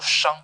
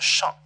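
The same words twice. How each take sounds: First: The syllable is said with a high level tone. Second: The syllable is said with a non-level tone. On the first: It is the name of a musical note. "On utilisait toujours le premier accent pour euh, appeler cette note" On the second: It is the everyday reading of the character. "dans le quotidien, on le prononce comme chant"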